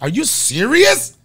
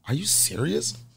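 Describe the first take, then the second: First: It is said loudly, to be heard. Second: It is said quietly, under the breath.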